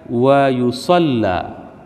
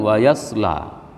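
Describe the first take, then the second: First: The L sound is doubled and held. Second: The L sound is single and short. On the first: This is an accepted variant reading. "bitasydidil lam" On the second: This is the commonly known reading. "bukan wa yasla"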